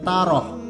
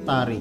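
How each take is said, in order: First: The name ends with an 'oh' sound. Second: The name ends with an 'ikh' sound. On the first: The speaker calls it right. "harusnya dibacanya Taroh" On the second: The speaker calls it wrong. "nyebutnya Tarikh. Ini keliru"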